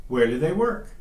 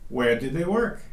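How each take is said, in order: The two takes are said the same way.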